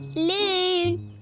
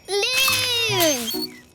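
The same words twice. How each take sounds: First: It is called at a normal loudness. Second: It is called very loudly.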